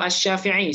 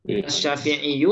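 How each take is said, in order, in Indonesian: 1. Kata ini berakhir dengan bunyi 'i' biasa. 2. Kata ini berakhir dengan bunyi 'yu'.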